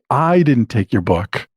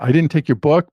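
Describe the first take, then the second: First: The stress falls on the word I. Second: The stress falls on the word book. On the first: Someone else took it. "it means that I didn't take it, but somebody else did" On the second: Something else was taken. "I took something else, but it wasn't your book"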